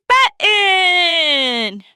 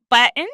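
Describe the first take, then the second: First: The big finish, shout button. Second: Said in the usual way. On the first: Shown as a demonstration. Teacher counting up to a shouted button. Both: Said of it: "button up your coat like this".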